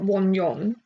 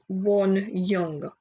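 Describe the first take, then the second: First: The last syllable sounds like 'yong'. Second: The last syllable sounds like 'young'. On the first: The speaker calls it wrong. "not Won Yong" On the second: The speaker calls it right. "So it's Won Young"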